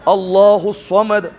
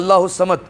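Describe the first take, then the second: First: اللہ الصمد with a heavy ص, slowly; thick saad. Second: اللہ الصمد with a thin س instead of ص; the wrong way, الصمد with a plain light س; thin seen in الصمد. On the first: Teacher correcting the class to a thick ص. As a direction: fatten the ص of الصمد. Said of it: "موٹا کرنا ہے". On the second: Teacher showing the common wrong thin س. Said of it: "سین سے پڑھے ہوتے ہیں". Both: Shown as a demonstration.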